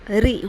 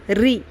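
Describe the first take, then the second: The two takes are said the same way.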